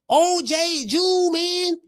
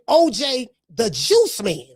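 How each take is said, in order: First: Juice is slurred so it sounds like Jew. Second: Juice is said clearly with its final s. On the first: "Cause that's how he said" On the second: "he's saying O J the Juice Man"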